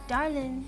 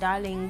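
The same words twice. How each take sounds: First: The word ends without a g sound. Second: The word ends with a g sound. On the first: "the Darling without a G" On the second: "Instead of darling"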